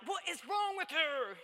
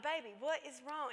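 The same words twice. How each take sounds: First: Exasperated retold outburst, higher and louder. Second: Put-on higher-pitched coaxing of an upset child; patient mother. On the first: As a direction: slowly demand it, nearly losing your temper. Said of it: "I almost got mad at her". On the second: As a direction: gently press your child for an answer. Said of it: "I'm gonna be patient".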